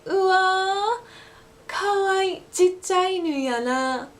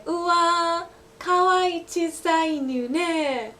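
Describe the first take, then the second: First: High, slow Osaka Ben coo over a puppy; Osaka Ben gushing. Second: High, slow cooing over a puppy; gushing over a cute dog. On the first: Teacher showing the Osaka Ben version, cooing in Osaka Ben. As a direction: gush in Osaka Ben with chichai. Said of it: "that same sentence would be". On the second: Teacher showing standard Japanese, cooing over a cute dog. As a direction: coo it like you just saw a puppy. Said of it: "you can say". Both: Shown as a demonstration.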